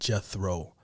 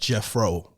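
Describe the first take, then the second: First: The middle consonant is not an F sound. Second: The middle consonant is an F sound. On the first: This is thought to be the real pronunciation. "I think that's how you pronounce it" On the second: This is how the name was assumed to be said. "with an F"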